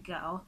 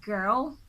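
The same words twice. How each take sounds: First: It is said in a British accent. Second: It is said in a Nigerian accent. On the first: "someone from the U K, you say girl" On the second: "from Nigeria, you might say something like girl"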